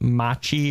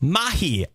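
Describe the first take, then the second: First: The middle consonant is a harsh ch. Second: The middle consonant is a soft h. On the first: The speaker calls it wrong. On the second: The speaker calls it right.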